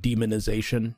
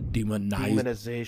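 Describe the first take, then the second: First: The middle 'i' vowel is weak and reduced. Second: The middle 'i' vowel is fully pronounced. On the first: The speaker calls it right. "You don't pronounce the I the way you are. It's just like demonization" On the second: The speaker calls it wrong. "not demonization"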